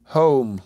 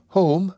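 First: "Home" answered with a falling tone; rejoining HOME. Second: High, questioning stress on "Home?"; "Home?" pitched up in stressed disbelief. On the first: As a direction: throw "Home" back as a firm, falling statement. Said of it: "rejoined the girl". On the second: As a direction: repeat "Home?" in a raised, rising voice with great stress. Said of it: "with great stress upon the word". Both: A narrator's reading.

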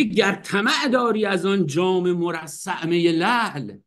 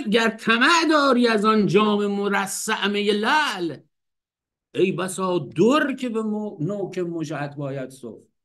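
First: Slow recital of the verse; poem recitation. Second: Slow, raised recital of the verse; poem recitation. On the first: Teacher reciting the Hafez line again, slow recitation. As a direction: draw the verse out slowly. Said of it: "میگه". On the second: Teacher reciting Hafez after laughing, slow raised poetic reading. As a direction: recite slowly and a bit higher. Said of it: "میگه که". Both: Shown as a demonstration.

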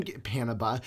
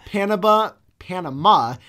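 First: Said in the usual way. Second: Panama in a sing-song parrot cadence. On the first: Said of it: "he says Panama in the same". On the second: Retold or imitated. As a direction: say Panama like the coach saying Gatorade. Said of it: "same cadence as the coach from Waterboy".

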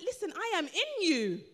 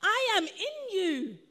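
First: Said in the usual way. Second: "I am in you" slowly, drawn out and weighty; emphatic repeat. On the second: Acted. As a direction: declare "I am in you" firmly, stretching each word. Repeats Jesus' words for emphasis.

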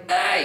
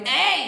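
First: Compressed, reduced loud "ay"; held back. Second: Open, high, loud "ay"; full-voiced high call; uncompressed shout. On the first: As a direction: hold the shout back, keep it compressed. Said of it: "held back". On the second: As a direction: belt it out unrestrained. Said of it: "So instead of going". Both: Shown as a demonstration.

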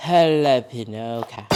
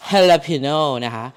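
First: Jalapeno repeated very slowly as "halapeno"; jalapeno with H sound. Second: Jalapeno said slowly as "halapeno", J as H; jalapeno with H sound. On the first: Cook repeating jalapeno for viewers, very slow. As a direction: drag out each syllable of jalapeno, H not J. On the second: Cook teaching viewers to say jalapeno, slow H sound. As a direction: stretch out jalapeno with an H at the start. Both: Shown as a demonstration. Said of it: "ทั้งๆที่มันเป็นตัว J นะ แต่ทำไมต้องแบบ ออกเสียงเป็นตัว H".

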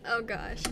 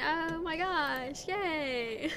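First: Said in the usual way. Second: Put-on high, stretched Valley Girl gush. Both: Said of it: "Okay, I mean".

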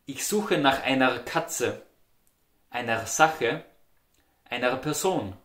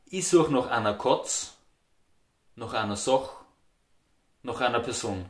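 First: Slow, full "Ich suche nach einer"; standard German. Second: "einer" said as "ana"; "Ich suche" as "I such", rounded "nach"; Austrian dialect. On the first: Teacher reading the standard example, full "einer". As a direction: clear "einer" with ei diphthong. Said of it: "You would say". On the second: Teacher modelling dialect sentence, "einer" as ana. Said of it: "In the Austrian dialect you would say". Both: Shown as a demonstration.

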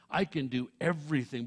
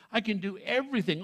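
First: Said in the usual way. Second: "I can do everything" with I and everything hit firmly; emphatic. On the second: Shown as a demonstration. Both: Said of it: "that's emphatic in the original".

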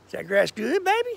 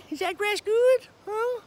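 First: Said in the usual way. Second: High cutesy pet voice. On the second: Real, not acted. Asking goat about grass.

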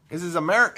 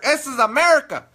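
First: Said in the usual way. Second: Higher, louder "America"; mock outrage. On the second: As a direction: blurt it in hammed-up indignation. Mock outburst at Spanish words.

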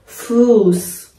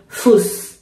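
First: فوس with a long drawn-out u; فوس said as "fuus", vowel held long; long stretched vowel. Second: فوس said with a short clipped u; فوس with a brief, unstretched u; short vowel, wrong. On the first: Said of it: "اینجا ما باید بخونیم فوس". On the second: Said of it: "به صورت بلند و کشیده تلفظ بشه". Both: Shown as a demonstration.

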